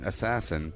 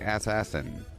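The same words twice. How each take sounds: First: The word is said with its usual pronunciation. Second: The word is said as ass-ass-in. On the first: "Instead of saying assassin" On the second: "Be funny if you pronounced that"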